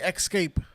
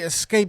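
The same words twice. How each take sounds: First: The word begins with an 'eks' sound. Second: The word begins with an 'ess' sound. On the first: The speaker calls it wrong. "they say escape" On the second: The speaker calls it right. "I don't know why people don't say escape"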